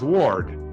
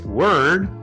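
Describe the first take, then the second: First: The vowel is an 'or' sound, like ward. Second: The vowel is the usual 'er' sound. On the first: "they'll pronounce ward" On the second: "many people would say word"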